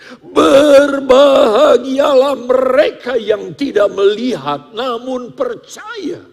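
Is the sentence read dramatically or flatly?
flat. It is read plainly without special emphasis. "tanpa gesturnya, tanpa penekanan"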